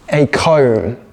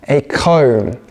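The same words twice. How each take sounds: The two takes are said the same way.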